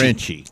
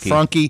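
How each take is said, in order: First: The name is said as Fran-chee. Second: The name is said as Fran-kee. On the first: The speaker calls it right. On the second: The speaker calls it wrong.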